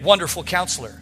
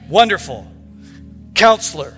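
First: The two words run together without pause. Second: There is a pause after wonderful.

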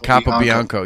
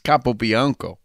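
First: Said in a Boston accent, syllables run together. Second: Said with every letter and syllable fully pronounced. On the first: "with the Boston" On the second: "you pay for all the letters, you might as well use them"

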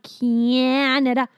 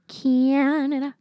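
First: The first vowel glides with a small y sound. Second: The first vowel is plain with no y glide. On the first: The speaker calls it wrong. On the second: The speaker calls it right.

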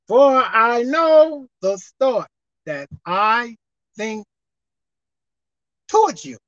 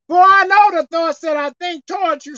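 First: It is read slowly and deliberately. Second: It is read at a normal speed.

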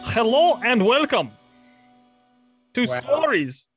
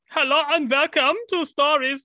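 First: It is said in the speaker's normal accent. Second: It is said with a put-on foreign accent.

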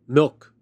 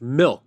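First: The vowel is held at normal length. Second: The vowel is clipped noticeably shorter. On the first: This is the ordinary dairy word. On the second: This is the brand name without the vowel.

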